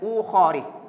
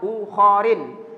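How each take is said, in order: First: The word ends in a bare i vowel. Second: The word ends in i followed by n. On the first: "tidak boleh ukhari" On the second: "apalagi dibaca ukharin"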